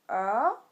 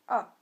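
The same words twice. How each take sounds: First: The pitch rises from middle to high. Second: The pitch falls sharply from high to low. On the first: "il monte" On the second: "il est descendant"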